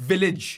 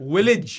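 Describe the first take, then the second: First: The word starts with a v sound. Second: The word starts with a w sound. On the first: The speaker calls it right. "not village" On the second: The speaker calls it wrong. "I was saying village"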